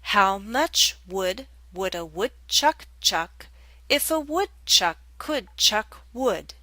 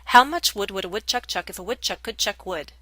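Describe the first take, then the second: First: It is said at a fairly fast pace. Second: It is said at a very fast pace.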